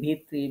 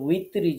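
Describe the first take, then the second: First: The word begins with a V sound. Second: The word begins with a W sound. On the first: The speaker calls it wrong. "সলাতুল বিত্রি ভিত্রি বিভিন্ন কিছু বলে ফেলি" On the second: The speaker calls it right. "সঠিক উচ্চারণ হচ্ছে উই"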